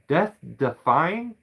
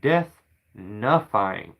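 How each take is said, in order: First: The second word begins with a d sound. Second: The second word begins with an n sound. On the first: The speaker calls it right. "say it's death defying" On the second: The speaker calls it wrong. "not death nuffying"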